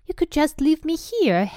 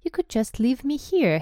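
First: High, eager hopeful plea; louder, higher hopeful suggestion. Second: Higher-pitched, hopeful suggestion; tentative hopeful plea. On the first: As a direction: put it in hopefully, voice lifted. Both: A narrator's reading. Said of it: "Harry put in hopefully".

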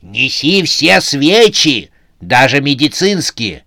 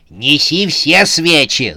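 First: A frightful slow command; scary voice. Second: Shouting. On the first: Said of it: "заорала страшным голосом". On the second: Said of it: "закричала она". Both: A narrator's reading.

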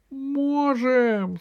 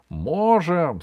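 First: High, squeaky drawn-out gnome reply; tearful squeak. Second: Loud, firm echoed reply; gnome's brothers. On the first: Gnome Веня answers the rally, high tearful squeak. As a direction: pipe up through tears. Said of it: "сквозь слёзы пискнул гном Веня". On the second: Brothers back up the gnome, loud determined call. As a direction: call it out with sturdy resolve. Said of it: "сказали его братья". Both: Acted.

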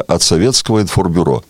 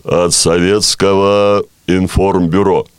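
First: Said in the usual way. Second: Slow, deep solemn state announcer; Levitan announcer voice. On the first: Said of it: "а ну-ка скажите-ка". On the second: Shown as a demonstration. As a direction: boom it out like Soviet radio. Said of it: "я сразу понял, что имеется в виду".

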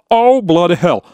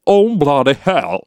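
First: Higher, British-sounding take; English accent. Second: Slow English accent warm-up. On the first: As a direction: hit the British accent harder. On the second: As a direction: tune into a British accent. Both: Shown as a demonstration. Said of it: "попытаюсь, э, с английским акцентом".

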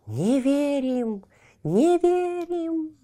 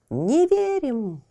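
First: Slow high eerie chant, rising; clamoring trees. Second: Slow high eerie chant; clamoring trees. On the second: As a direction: chant disbelief like rustling trees. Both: Acted. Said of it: "расшумелись деревья".

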